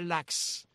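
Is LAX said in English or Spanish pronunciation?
Spanish. It is said as a Spanish word, like laxante. The speaker calls it wrong. "La gente dice LAX. A mí no me gusta LAX porque LAX parece que es el apócopo del laxante"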